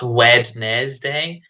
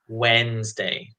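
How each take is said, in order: First: The middle letters are pronounced aloud. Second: The middle letters are left silent. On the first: The speaker calls it wrong. "it's not Wednesday" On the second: The speaker calls it right. "There's a couple of uh, silent letters there"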